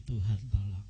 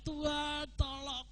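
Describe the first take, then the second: First: Said in the usual way. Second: Mock cry for help. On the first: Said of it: "saudara jangan teriak lagi". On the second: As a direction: stretch it out as a desperate plea. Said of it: "Dulu saudara teriak". (seruan minta tolong yang tinggi dan lambat, ditirukan)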